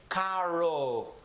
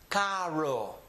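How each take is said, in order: Both takes have the same delivery.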